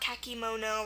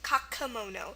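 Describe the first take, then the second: First: The middle vowel is a clear ee sound. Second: The middle vowel is a weak uh sound. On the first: The speaker calls it wrong. "not kakimono" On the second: The speaker calls it right. "our E in the middle here makes a schwa sound, the uh sound"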